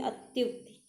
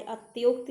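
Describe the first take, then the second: First: अत्युक्ति with a short 'yu', softer; u in middle. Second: अत्योक्त said with 'yo'; o in middle. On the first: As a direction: say अत्युक्ति as 'at-yuk-ti'. (अत्युक्ति में छोटा 'यु') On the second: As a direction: put an o sound inside अत्योक्त. (अत्योक्त में 'यो' की आवाज़) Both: Shown as a demonstration. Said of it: "अत्योक्त नहीं".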